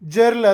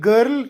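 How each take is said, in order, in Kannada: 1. ಈ ಪದವು j ಧ್ವನಿಯಿಂದ ಆರಂಭವಾಗುತ್ತದೆ. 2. ಈ ಪದವು ಗಟ್ಟಿಯಾದ g ಧ್ವನಿಯಿಂದ ಆರಂಭವಾಗುತ್ತದೆ. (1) "ಜರ್ಲ್ ಅಲ್ಲ"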